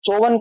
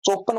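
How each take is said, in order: First: The middle consonant is a v sound. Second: The middle consonant is a p sound. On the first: The speaker calls it right. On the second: The speaker calls it wrong.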